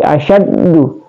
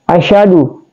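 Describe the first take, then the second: First: The d sound is doubled and stressed. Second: The d sound is short, without doubling. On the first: The speaker calls it right. "tapi asyaddu" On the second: The speaker calls it wrong. "jadi bukan"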